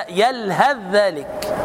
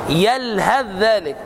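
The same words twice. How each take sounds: No difference in how they are said.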